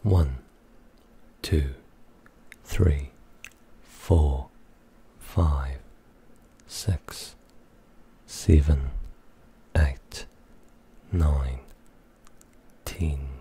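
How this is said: It is counted in a New Zealand accent. "That was New Zealand"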